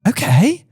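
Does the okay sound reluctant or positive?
positive. It sounds positive and eager.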